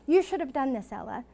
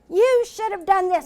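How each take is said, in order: First: It is said in a gentle, nice tone. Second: It is said in a harsh, critical tone.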